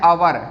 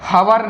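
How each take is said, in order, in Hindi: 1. इस शब्द की शुरुआत स्वर ध्वनि से होती है। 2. इस शब्द की शुरुआत h ध्वनि से होती है। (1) "क्या है, आवर" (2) "हवर नहीं है"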